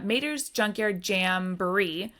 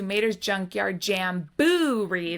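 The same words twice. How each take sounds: First: The 'boo' syllable gets no special emphasis. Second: The 'boo' syllable is strongly emphasized. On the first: This is the usual ride name. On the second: This is the Halloween version of the ride name.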